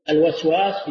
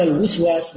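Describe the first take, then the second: First: الوسواس said al-waswas, with an "a" after the waw; fatha on the waw. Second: الوسواس said al-wiswas, with an "i" after the waw; kasra on the waw. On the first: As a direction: open the first waw of الوسواس to "wa". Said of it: "بفتح الواو". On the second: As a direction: narrow the first waw of الوسواس to "wi". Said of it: "بالكسر". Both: Shown as a demonstration.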